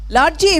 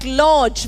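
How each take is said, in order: First: It is said with a Telugu-style vowel and ending. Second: It is said with an English-style vowel and ending. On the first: The speaker calls it wrong. "very often mispronounced as largy" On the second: The speaker calls it right. "when I'm pronouncing lodge"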